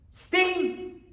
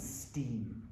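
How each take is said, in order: First: "Steam!" burst out high, an exclamation; exclaimed. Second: Low, soft "steam." almost to himself; soft first take. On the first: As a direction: announce "Steam!" with sudden high excitement. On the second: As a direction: say "steam." quietly, dropping the voice low. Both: Shown as a demonstration.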